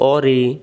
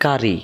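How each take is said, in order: First: It starts with a deep back-of-throat q sound. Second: It starts with a plain front k sound. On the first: The speaker calls it right. "এটা কফ জবর ক, রজের রি" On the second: The speaker calls it wrong. "তাহলে এটা কফটা কাফ হয়ে যাচ্ছে"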